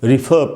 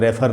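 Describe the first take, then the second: First: The first syllable has a short 'ih' vowel. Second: The first syllable has an 'eh' vowel. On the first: The speaker calls it right. "रिफर पढ़ना चाहिए इसको" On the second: The speaker calls it wrong. "रेफर नहीं"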